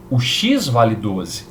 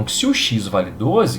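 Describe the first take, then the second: First: X vale doze said slowly, each word weighed; slow emphatic statement. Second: Said in the usual way. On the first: Shown as a demonstration. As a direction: land the "doze" slowly and firmly. Teacher stating the result.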